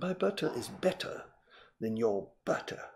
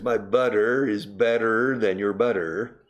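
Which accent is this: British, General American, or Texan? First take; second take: British; Texan. First: It is spoken in a British RP accent. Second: It is spoken in a Texan accent. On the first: "But in perfect received pronunciation" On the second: "And in Texas"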